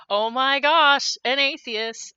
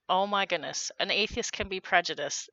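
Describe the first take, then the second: First: Mock shock. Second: Said in the usual way. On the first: Sarcastic mock shock at atheists.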